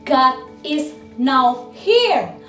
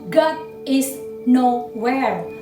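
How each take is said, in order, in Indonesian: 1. Bagian terakhir dipisah menjadi dua kata. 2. Bagian terakhir diucapkan menyambung menjadi satu kata. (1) "Tuhan ada di sini sekarang juga" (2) "Tuhan tidak ada dimanapun"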